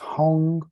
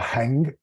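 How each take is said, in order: First: The vowel sounds like the u in hung. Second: The vowel sounds like the a in hang. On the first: The speaker calls it right. "It's Hung" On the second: The speaker calls it wrong. "It's not Hang"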